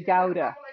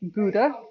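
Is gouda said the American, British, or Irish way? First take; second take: British; American. First: It is said the British way. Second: It is said the American way.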